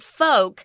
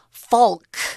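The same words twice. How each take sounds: First: The word is said with a silent L. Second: The word is said with an audible L. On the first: The speaker calls it right. "notice I'm not pronouncing the L" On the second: The speaker calls it wrong. "I'm not saying folk"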